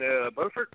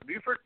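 First: Said in the usual way. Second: "Beaufort?" said as a high questioning try, unsure how to say it; checking how to say "Beaufort?"; unsure pronunciation. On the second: Shown as a demonstration. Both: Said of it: "How you say that".

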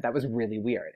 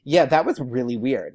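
First: Soft, sinking self-aware aside; embarrassed admission. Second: Imitating a star's candid confirmation; frank agreement. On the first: Retold or imitated. Fan admitting an odd remark to Taylor, quietly embarrassed. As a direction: own up to it under your voice. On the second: Taylor confirming the fan's awkwardness, frankly agreeing. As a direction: agree plainly, with weight on it. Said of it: "I can picture exactly how she said that".

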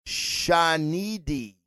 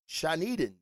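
First: Shanidi said slowly as shah-NEE-dee, ending on an ee; sounding out Shanidi carefully, syllable by syllable; slow, unsure try at the name Shanidi; first try at the name. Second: Shaniden said as shah-NEE-den, ending on a soft den; trying Shaniden, with the final syllable changed to den; quiet second guess at the name Shaniden; corrected name. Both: Shown as a demonstration. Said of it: "I still butchered it".

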